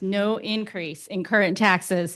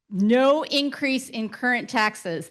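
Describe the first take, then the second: First: Said in the usual way. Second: "no increase in current taxes" said slowly and higher, each word weighted; emphasized. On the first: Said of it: "That's what I wanna emphasize". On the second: Real, not acted. Bond presenter stressing the key point to the council, slow and emphatic. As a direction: lean on "no" and slow right down. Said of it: "I wanna emphasize that".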